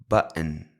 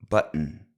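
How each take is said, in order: Both takes have the same delivery.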